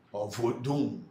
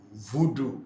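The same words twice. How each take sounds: First: Voodoo with a nasal m-like ending, vodum. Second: Voodoo with clean oral vowels, no nasal ending; voodoo said plain. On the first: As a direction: give voodoo the nasal Fon ending, vo-dum. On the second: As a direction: say voodoo as vu-du, crisp and open. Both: Shown as a demonstration. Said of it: "Is it the word voodoo".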